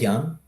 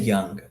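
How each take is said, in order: First: The word ends without a hard G sound. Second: The word ends with a clearly hit G sound. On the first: "I say young" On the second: "You hit the G in young"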